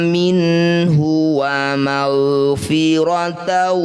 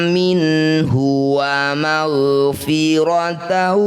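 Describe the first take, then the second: Both takes have the same delivery.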